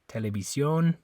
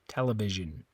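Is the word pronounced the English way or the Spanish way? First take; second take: Spanish; English. First: The word is pronounced the Spanish way. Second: The word is pronounced the English way. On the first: "In Spanish" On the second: "In English"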